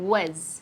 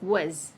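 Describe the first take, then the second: First: The vowel is reduced and weak. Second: The same.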